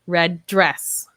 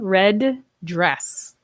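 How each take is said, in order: First: The words are linked with one D sound. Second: Both D sounds are pronounced separately. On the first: The speaker calls it right. "I would say red dress. Just like that time" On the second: The speaker calls it wrong. "So I would not say red dress"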